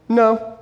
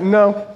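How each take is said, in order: First: A blunt, higher mock-kid no; flat refusal from a little boy; defiant child's no. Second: Put-on defiant child's no. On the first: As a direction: imitate a five-year-old flatly refusing. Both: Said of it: "he says it just like that".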